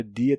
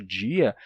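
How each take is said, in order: First: Said in the usual way. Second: "dia" turned into DJI-a; palatalized D. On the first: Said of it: "a forma dia terminou se tornando". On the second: Shown as a demonstration. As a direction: say "dia" with an English J at the start. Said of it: "terminou se tornando dia". ("dia" com dji)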